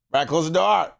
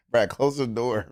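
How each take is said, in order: First: Repeated order. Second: Said in the usual way. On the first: Real, not acted.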